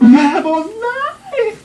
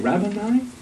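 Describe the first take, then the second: First: It is said with great excitement. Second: It is said flatly, like a question.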